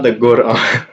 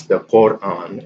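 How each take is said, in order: First: Quran with a hard g for q, laughing; joking wrong pronunciation. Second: Quran with a throaty q; formal qaf. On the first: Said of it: "you wouldn't say it that way". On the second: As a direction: keep the q in Quran back in the throat. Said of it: "sometimes the qaf is just used no matter what". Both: Shown as a demonstration.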